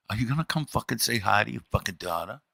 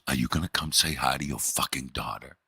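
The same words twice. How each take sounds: First: Hushed, fast, furious whisper; a wife's seething whisper to her husband, hushed and fast; angry whisper. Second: Hushed, seething demand; a wife poking her head out the door, seething in a hushed voice; angry whisper. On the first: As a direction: hiss it so the guests won't hear. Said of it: "in that same whisper". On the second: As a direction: hiss it through the doorway. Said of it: "in that voice". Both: Retold or imitated.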